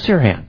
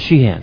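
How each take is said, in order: First: The name begins with a plain 's' sound. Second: The name begins with an 'sh' sound. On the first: The speaker calls it wrong. "Because they don't have the SH sound" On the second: The speaker calls it right. "no, my name is Sheehan"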